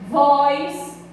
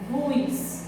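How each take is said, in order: First: The word is said with strong stress. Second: The word is said with weak stress. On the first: "percebam que ele é forte, então é um monossílabo tônico" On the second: "Ele não tem um som mais fraco, então a gente diz que ele é um monossílabo átono"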